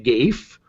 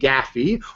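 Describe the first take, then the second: First: It rhymes with safe, with a long vowel. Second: It rhymes with taffy, two syllables. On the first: "rhyme it with safe" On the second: "rhyme it with taffy"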